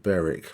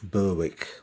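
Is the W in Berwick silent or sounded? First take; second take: silent; sounded. First: The W in the middle is silent. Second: The W in the middle is sounded. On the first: This is the British way of saying the name. "Silent W" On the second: This is how the locals say the town's name. "in the local pronunciation"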